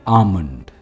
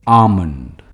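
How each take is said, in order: Both takes have the same delivery.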